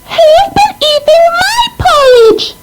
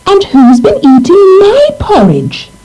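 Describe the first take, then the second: First: It is squeaked in a tiny voice. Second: It is mumbled in a middle-sized voice.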